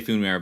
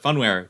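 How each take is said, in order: First: "foonware," with a long oo up front; own pronunciation. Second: "funware" with first syllable like fun; alternative pronunciation. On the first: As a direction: say "foonware," as FOON-ware. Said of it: "I do say". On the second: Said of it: "could be, it could be". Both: Shown as a demonstration.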